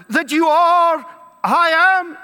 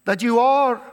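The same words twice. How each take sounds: First: "are" pushed louder and higher, falling; stress on are. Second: Said in the usual way. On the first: Shown as a demonstration. Preacher mocking the crowd's disbelief, hitting "are". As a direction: lean hard on "are".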